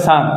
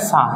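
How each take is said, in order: First: Said in the usual way. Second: "স্যার" with a silent final R; R-less British pronunciation. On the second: Shown as a demonstration. Teacher shows learners British sir, "স্যার" without the R. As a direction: end "স্যার" on an open aa vowel, no R. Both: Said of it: "তাহলে স্যার আর উচ্চারণটা হবে না".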